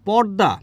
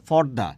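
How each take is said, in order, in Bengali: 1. প্রথম ব্যঞ্জনটি হলো সাধারণ, অল্পপ্রাণ p। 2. প্রথম ব্যঞ্জনটি হলো মহাপ্রাণ ph। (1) "প হচ্ছে কি অল্প প্রাণ" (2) "ফ হচ্ছে মহাপ্রাণ"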